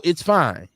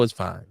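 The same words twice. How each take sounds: First: Said in the usual way. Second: Muttered aside. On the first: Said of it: "But now that I know". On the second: Real, not acted. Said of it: "Now that I know".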